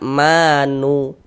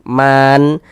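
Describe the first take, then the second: First: It adds a short u after the n. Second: It stops on the n with no vowel. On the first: The speaker calls it wrong. "Jangan dibaca manu, nu baru berhenti" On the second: The speaker calls it right. "kita baca ar-Rahman, man"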